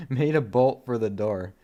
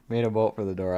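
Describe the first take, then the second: First: Laughing so hard the voice cracks; voice cracking with laughter. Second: Said in the usual way. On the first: Real, not acted. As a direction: voice breaks mid-laugh. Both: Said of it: "It made my voice crack".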